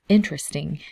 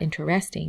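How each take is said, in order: First: The stress falls on the first syllable. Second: The stress falls on a later syllable. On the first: The speaker calls it right. "it's interesting. So the emphasis is on the first syllable" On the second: The speaker calls it wrong. "it's not interesting"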